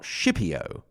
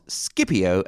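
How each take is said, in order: First: The name begins with a 'sh' sound. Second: The name begins with a 'sk' sound. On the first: The speaker calls it wrong. "and not Scipio ... instead of sh" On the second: The speaker calls it right. "we do pronounce Scipio ... k instead of sh"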